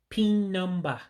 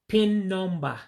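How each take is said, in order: First: It is said with an Igbo accent. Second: It is said with an Igbo accent.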